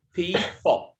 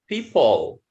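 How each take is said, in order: First: "people" split in two, high first syllable, then "puh". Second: Said in the usual way. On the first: Shown as a demonstration. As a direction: break "people" into pee, puh. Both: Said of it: "the schwa sound here is pronounced".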